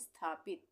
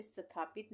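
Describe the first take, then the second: First: स्थापित with स running straight into था, sthaa-pit; no vowel between स and था in स्थापित; correct half s. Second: स्थापित wrongly said sa-tha-pit, with a vowel after स; wrong full s. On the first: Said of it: "स का उच्चारण क्या हो रहा है". (स्थापित में आधा स, सीधे था से जुड़ा) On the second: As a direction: put a full स at the start of स्थापित, as sa-thapit. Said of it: "स्थापित नहीं बोल रहे हैं". (स्थापित में पूरा स, "सथापित" जैसा गलत उच्चारण) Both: Shown as a demonstration.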